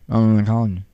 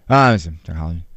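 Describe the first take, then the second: First: The words are mumbled quietly and indistinctly. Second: The words are said clearly and audibly. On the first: The speaker is reluctant to reveal the job. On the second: The speaker repeats it so the listener hears.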